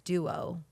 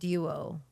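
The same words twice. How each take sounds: First: It is said with an American accent. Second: It is said with a British accent. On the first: "the American way is duo"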